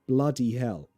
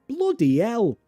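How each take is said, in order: First: It is said in a London accent. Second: It is said in a northern English accent. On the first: "I am from London, so I say blah, bloody" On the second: "She is northern, so she says blow, oh, bloody"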